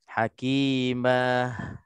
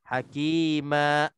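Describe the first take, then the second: First: The word ends with an audible breathy h. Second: The word ends with an abrupt glottal stop. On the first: "Bila kita terlebih nafas, dia akan uh, ter, dia akan terjadi seolah-olah ada huruf ha mati" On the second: "kita berhenti dengan secara kuat, dengan secara kasar, dia akan jadi huruf hamzah di sini, hamzah mati"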